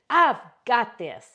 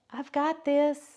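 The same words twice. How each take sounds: First: It is said with lively, high energy. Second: It is said with flat, low energy. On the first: The speaker calls it right. "sit or stand tall and say it again" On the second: The speaker calls it wrong. "Slouch and say"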